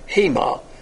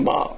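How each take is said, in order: First: The word begins with an h sound. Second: The word begins with a vowel, no h. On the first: "but we call it hema" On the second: "They had a silent H, But you can pronounce it ama"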